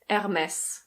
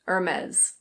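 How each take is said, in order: First: It is said with a French pronunciation. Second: It is said with an American pronunciation, R sounded. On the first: "In French, this is pronounced Hermès" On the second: "In American English, the R is pronounced"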